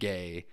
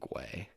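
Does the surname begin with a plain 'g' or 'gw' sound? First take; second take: plain g; gw. First: The name starts with a plain g sound. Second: The name starts with a gw sound. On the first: This is how the family says the name. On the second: This is the original pronunciation of the name. "It's supposed to be pronounced fucking Gway"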